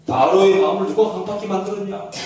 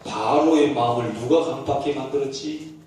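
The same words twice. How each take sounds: First: Louder, firmer 누가 push; pressing repeated question. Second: Low calm question. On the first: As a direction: press him the second time. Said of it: "또 물어요". (다그치듯 더 크게) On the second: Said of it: "최 목사님 보고 얘기합니다". (낮고 차분한 질문) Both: Acted.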